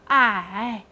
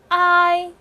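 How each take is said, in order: First: The pitch dips low, then rises. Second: The pitch stays high and level. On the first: "三声I" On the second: "一声I"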